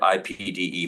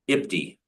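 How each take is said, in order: First: It is spelled out as four letters. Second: It is read as a single word.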